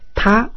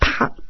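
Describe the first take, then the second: First: The pitch rises from low to high. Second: The pitch falls from high to low. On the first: "O segundo é ascendente" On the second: "O quarto é descendente"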